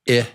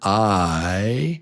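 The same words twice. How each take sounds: First: It is a short vowel, as in insect. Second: It is a long vowel, as in kite. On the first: "the short I is I, as in insect" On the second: "the long letter I sound is I"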